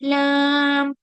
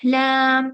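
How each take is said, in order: First: The sound comes out through the nose. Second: No sound comes out through the nose. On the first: The speaker calls it wrong. "नाक से आवाज ला रहे हो तो वो गलत हो जाएगा" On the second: The speaker calls it right. "इसमें नाक से आवाज नहीं आएगी"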